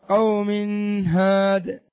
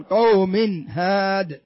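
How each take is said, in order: First: "قوم هاد" with the tanween n hummed and blurred into ه; don't separate the n, let it linger into "هاد"; نطق غير صحيح. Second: Slow "قوم هاد", tanween n crisply sounded before ه; إظهار النون. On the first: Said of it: "ما يصح أن تقول". (نطق "قوم هاد" خطأً دون إظهار نون التنوين) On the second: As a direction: finish the n of "قوم" cleanly, then drawn-out "هاد". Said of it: "لابد أن تظهر النون". (نطق "قوم هاد" ببطء مع إظهار نون التنوين) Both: Shown as a demonstration.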